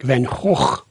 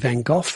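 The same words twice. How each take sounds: First: The name is said in a Dutch-like way. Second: The name is said in the local way. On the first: "the Dutch say something more like Van Gogh" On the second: "we tend to say Van Gogh"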